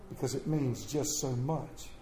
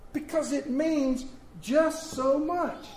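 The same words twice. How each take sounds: First: Low, soft and hushed; hushed refrain. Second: Soaring high and slow; lifted refrain. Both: Acted.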